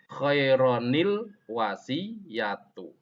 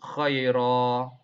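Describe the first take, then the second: First: An n sound joins the two words. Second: The first word ends without an n sound. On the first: The reading connects the words without stopping. "diwasolkan, disambung, maka di situ nanti ada nun iwatnya" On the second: The reading pauses between the words. "tidak diwasolkan, maka bacaannya cukup khaira"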